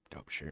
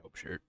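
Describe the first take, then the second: First: Said in the usual way. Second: Breathy whisper, barely voiced; whispered compliment. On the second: Real, not acted. Host whispering praise for his cohost's shirt. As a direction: whisper it like a secret aside.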